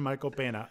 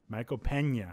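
First: The name is said with a plain 'n' sound. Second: The name is said with a Spanish 'ny' sound. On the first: The speaker calls it wrong. "It's better than Michael Pena" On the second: The speaker calls it right. "It's called the Pena in Spanish"

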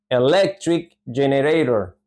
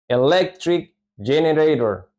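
No difference in how they are said.

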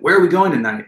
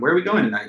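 First: The question is asked in an angry tone. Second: The question is asked in a calm tone. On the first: The speaker is annoyed about the plans. "delivered in an angry tone" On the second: The speaker is simply asking about the plans. "in a calm or a measured tone"

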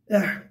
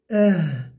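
First: The final h is harsh and rasping. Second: The final h is soft and breathy. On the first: The speaker calls it wrong. "Eh değil. O zaman ha gibi olmuş olur. Yanlış olur" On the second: The speaker calls it right. "İnce, gizli ve yumuşak okunur"

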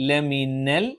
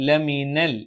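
Both takes have the same delivery.

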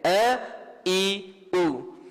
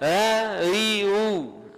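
First: Each vowel starts with a firm, voiced glottal catch. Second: Each vowel starts softly without a firm glottal catch. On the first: The speaker calls it right. "Hamzah mesti teher" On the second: The speaker calls it wrong. "Tapi ada yang baca"

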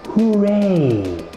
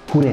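First: The word is drawn out slowly. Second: The word is said quickly. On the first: The speaker calls it right. "say it with me slowly" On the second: The speaker calls it wrong. "Not this hooray stuff"

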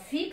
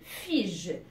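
First: The g in the word is a hard g. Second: The g in the word is a soft j. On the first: The speaker calls it right. "figue, c'est un fruit" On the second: The speaker calls it wrong. "c'est fige. Alors, c'est une erreur"

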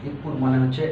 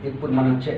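The two takes are said the same way.

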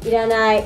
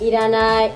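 Both takes have the same delivery.

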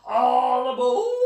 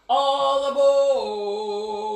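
First: The voice rises at the end. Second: The voice falls at the end.

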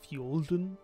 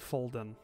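First: The name begins with an fy sound. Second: The name begins with a plain f sound. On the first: This is the local pronunciation. "it would be pronounced by the locals like Fjolden" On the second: This is an outsider's pronunciation. "that's how I'm pronouncing it"

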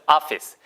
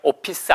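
First: The middle consonant is an f sound. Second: The middle consonant is a p sound. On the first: The speaker calls it right. "위치 아랫입술 office" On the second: The speaker calls it wrong. "오피스 아니고"

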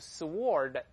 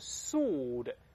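First: The W sound is pronounced before the vowel. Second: The W is silent and not pronounced. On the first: The speaker calls it wrong. "不要读sword，sword 都不对" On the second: The speaker calls it right. "读成sword"

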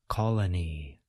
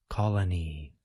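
Both takes have the same delivery.

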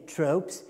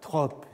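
First: The word is pronounced the English way. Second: The word is pronounced the French way. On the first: It means abstract particulars. "mais les tropes, c'est-à-dire ce qu'on appelle aujourd'hui tropes" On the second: It means figures of speech. "ce n'est pas les tropes, c'est-à-dire les figures du discours"

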